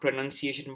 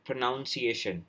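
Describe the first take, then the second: First: The second syllable sounds like 'nun'. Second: The second syllable sounds like 'noun'. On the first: "not pronunciation" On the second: "they use noun"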